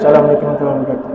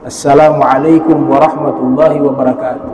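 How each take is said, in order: First: It is said very quietly, barely audible. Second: It is said in a clear, audible voice.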